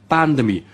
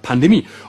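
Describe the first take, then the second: First: The stress is on the first syllable. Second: The stress is on the last syllable. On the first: This is how one particular expert says it. The speaker calls it right. "Betonung bei Lauterbach immer auf der ersten Silbe" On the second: This is how amateurs say it. The speaker calls it wrong. "Nur Dilettanten sprechen von der Pandemie"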